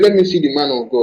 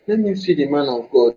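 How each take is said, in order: First: It is said in the speaker's usual accent. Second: It is said in an imitated Cameroonian accent.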